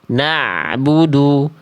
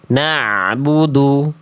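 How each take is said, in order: First: The ain sound flows on slightly. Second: The same.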